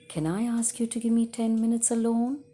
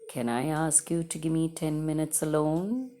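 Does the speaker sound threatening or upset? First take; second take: upset; threatening. First: It is said in an upset way. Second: It is said in a low, threatening way.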